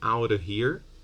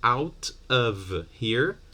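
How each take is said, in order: First: A sound is dropped and the t is tapped. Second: Every sound in the phrase is said fully.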